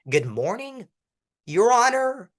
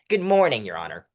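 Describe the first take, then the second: First: The pitch rises at the end. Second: The pitch falls at the end. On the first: The speaker sounds unsure. The speaker calls it wrong. "everyone goes up at everything" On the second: The speaker sounds confident. The speaker calls it right. "Go down. When you go down, you sound confident"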